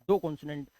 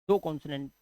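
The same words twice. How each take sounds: Both takes have the same delivery.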